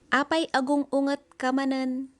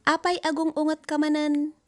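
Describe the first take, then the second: No difference in how they are said.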